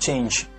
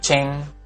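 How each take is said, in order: First: The word ends in a released j sound. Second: The word ends in an ng sound. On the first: The speaker calls it right. "tapi diletupkan change" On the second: The speaker calls it wrong. "Bukan bukan cheng"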